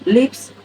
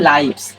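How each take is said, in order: First: The vowel is short, as in give. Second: The vowel is a diphthong, as in five. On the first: It means someone dwells somewhere. "এই লিভস মানে কি? বসবাস করা।" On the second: It means more than one life. "যখন ওই life থেকে এটা আসবে তখন লাইভস উচ্চারণ হবে"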